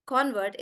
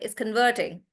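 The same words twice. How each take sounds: First: "Convert" stressed on the first syllable; noun stress. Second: "converting" stressed on the second syllable; stress on VERT. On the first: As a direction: put the weight on CON in "Convert". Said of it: "that's why we say convert". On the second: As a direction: put the weight on VERT in "converting". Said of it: "the stress is on vert". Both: Shown as a demonstration.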